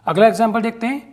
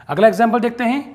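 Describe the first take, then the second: Both takes have the same delivery.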